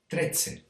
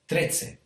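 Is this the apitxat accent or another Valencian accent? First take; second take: apitxat; apitxat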